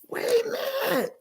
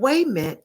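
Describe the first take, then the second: First: Each word is said fully and separately. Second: The words blur into one word without the t.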